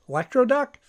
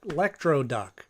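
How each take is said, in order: First: "Electro Duck" as a doubtful question, pitched well up. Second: Said in the usual way. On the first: Real, not acted. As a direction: query "Electro Duck" in a higher voice, unsure of the name. Doubting the name just recalled.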